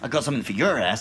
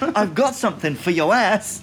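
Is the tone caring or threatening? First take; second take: threatening; caring. First: It sounds threatening and aggressive. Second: It sounds gentle and caring.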